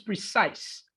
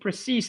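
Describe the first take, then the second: First: The word has a standard English pronunciation. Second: The word has a Spanish-influenced pronunciation. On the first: The speaker calls it right. "the word is precise" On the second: The speaker calls it wrong. "you pronounce it precise, I think, or something like that"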